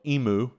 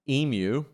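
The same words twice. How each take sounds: First: Emu is pronounced a non-Australian way. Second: Emu is pronounced the Australian way. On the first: This is how the company names it. "as they say" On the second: This is how locals name the animal. "my pronunciation's right because we have emus in Australia"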